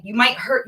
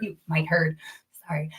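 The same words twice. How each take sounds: First: Said in the usual way. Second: Whispered echo of the line. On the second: Real, not acted. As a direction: drop to a soft whisper. Repeated, then whispered.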